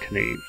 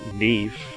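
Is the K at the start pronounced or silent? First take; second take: pronounced; silent. First: The K at the start is pronounced. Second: The K at the start is silent.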